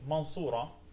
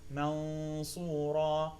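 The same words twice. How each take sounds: First: The nasal sound before the s is cut short. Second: The nasal sound before the s is held. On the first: The speaker calls it wrong. "which I hear some students do" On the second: The speaker calls it right. "The nasal sound is important"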